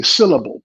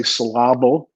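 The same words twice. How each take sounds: First: Said in the usual way. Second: "syllable" with the stress moved to the middle, si-LAH-ble; wrong-syllable stress. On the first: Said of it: "put the stress at the beginning". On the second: Shown as a demonstration. Teacher showing how not to say "syllable", middle syllable stressed. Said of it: "You don't say syllable".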